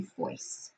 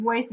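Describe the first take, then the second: First: "foice" with an unvoiced F in place of the V. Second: "voice" with a clear voiced V at the start; teacher models "voice" with a proper V; correct V in voice. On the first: Teacher imitating a student's F for V in foice. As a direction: demonstrate "foice", F replacing V. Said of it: "she would do more of an F". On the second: Teacher showing the right V sound in voice. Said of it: "instead of doing the V". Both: Shown as a demonstration.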